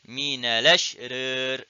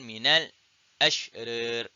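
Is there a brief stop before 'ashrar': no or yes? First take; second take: no; yes. First: The words run together without a stop. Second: A brief stop comes before the second word. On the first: "dia boleh baca naqal" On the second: "dia boleh baca dengan saktah"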